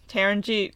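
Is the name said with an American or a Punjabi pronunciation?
American. The name is said with an American pronunciation. The speaker calls it wrong. "but it always came out as"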